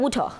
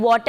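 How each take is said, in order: First: "water" said as "woo-tha"; exaggerated British "water", ending in "-tha"; British-style water. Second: Said in the usual way. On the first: Shown as a demonstration. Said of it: "तो हम उसको बोलेंगे". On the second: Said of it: "टी और एच का sound ज्यादा बोला".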